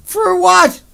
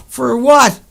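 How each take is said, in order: First: "For what?" yelled much higher and louder; furious yell. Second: Loud, raised "For what?"; angry shout. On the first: Repeating his question, a high furious yell. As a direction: throw it out at the top of the voice. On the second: Demanding why the planet was wrecked, loud angry shout. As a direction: demand it with real anger. Furious rhetorical question. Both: Real, not acted.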